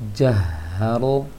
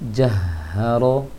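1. Napas langsung mengalir ke vokal setelah h. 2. Napas langsung mengalir ke vokal setelah h.

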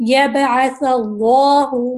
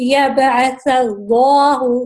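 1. اللہ میں L موٹا اور بھرا ہوا ہے۔ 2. اللہ میں L موٹا اور بھرا ہوا ہے۔

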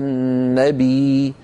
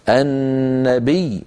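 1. الصوت الأخير يُمدّ مدا طويلا. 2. الياء المشددة تُضغط بحركة قصيرة. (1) "لا نمدها مدا طبيعيا هكذا" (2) "فنضغط على صوت الياء"

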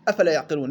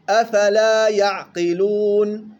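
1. الحركة الأخيرة في 'afala' مقصورة. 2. الحركة الأخيرة في 'afala' ممدودة. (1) "امبارح قرأها واحد عندي" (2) "لا"

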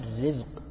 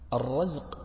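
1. الحركة الأولى في الكلمة هي 'i'. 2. الحركة الأولى في الكلمة هي 'a'.

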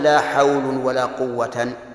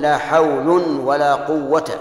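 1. تنتهي الكلمة الأخيرة بتنوين الفتح. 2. تنتهي الكلمة الأخيرة بفتحة قصيرة دون تنوين. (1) "ولا تقل" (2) "ألغيت لا في الأولى وأعملتها في الثاني"

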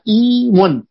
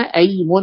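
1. تبدأ الكلمة بالصوت i. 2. تبدأ الكلمة بالصوت a. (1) "إذا كسرنا همزة الوصل في أيمن" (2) "نقرأها نحن أيمن على الوجه الراجح"

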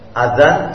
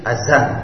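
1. Konsonan tengahnya bunyi th yang lembut. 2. Konsonan tengahnya bunyi z.

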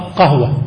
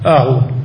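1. تبدأ الكلمة بصوت القاف العميق. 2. تبدأ الكلمة بهمزة. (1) "قديما ونحن صغار نقرأ قهوة" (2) "اليوم أهوة بالهمزة"

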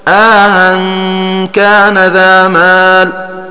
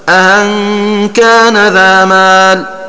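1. يفصل بين الهمزتين مدّ. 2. لا يفصل بين الهمزتين أي مدّ. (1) "تسهيل الثانية مع الإدخال" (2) "تسهيل الثانية بلا إدخال"

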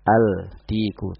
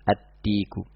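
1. Bunyi l terdengar jelas sebelum d. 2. Bunyi l melebur menjadi bunyi d yang ganda.

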